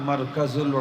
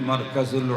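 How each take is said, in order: The two takes are said the same way.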